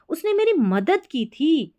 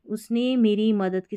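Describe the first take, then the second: First: "मेरी" पर जोर, ऊँची आवाज़ में; "मेरी" को ऊँचा उठाकर धीरे कहो; जोर देकर. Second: Said in the usual way. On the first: Shown as a demonstration. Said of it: "ऐसा जोर देके बोला". (जोर देकर बताना कि मदद की थी) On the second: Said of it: "simply बोलूँगी".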